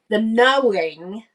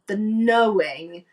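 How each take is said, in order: First: "knowing" drawn out slowly, louder, with a rise; slow stress on "knowing"; emphatic. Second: "knowing" very slow, rising at the end; drawn-out rise on "knowing"; emphatic. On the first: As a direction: lean on "knowing" and stretch it. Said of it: "emphasising knowing over believing". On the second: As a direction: savour "knowing" again, slowly. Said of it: "repeating knowing for emphasis". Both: Real, not acted.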